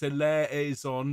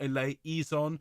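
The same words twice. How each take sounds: First: "eleison" with an open "eh" vowel, e-LEH-zon; correct pronunciation. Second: "eleison" with an extra "ee", e-lay-EE-zon; wrong pronunciation. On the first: Choir leader correcting the singers' vowel, "eleison" as e-LEH-zon. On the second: Choir leader showing the mistake, "eleison" as e-lay-EE-zon. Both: Shown as a demonstration. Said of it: "not eleison".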